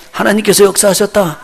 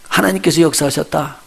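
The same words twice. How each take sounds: First: 하나님께서 said higher and louder, falling; 하나님께서 proclaimed. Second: Said in the usual way. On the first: Shown as a demonstration. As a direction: proclaim 하나님께서 with a strong fall. (하나님께서를 높고 크게 선포하듯) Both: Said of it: "나는 이런 거를 하나님이 역사하셨다고 봐요".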